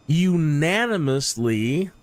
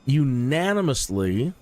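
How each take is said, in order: First: Unanimously drawn out slowly, rising at the end; slow emphatic unanimously; stress on unanimously. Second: Unanimously repeated slowly with a rise; unanimously said slow again for weight; deliberate repeat of unanimously; stress on unanimously. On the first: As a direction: lean hard on unanimously, slow and deliberate. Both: Shown as a demonstration. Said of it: "that's very important that I stress that word".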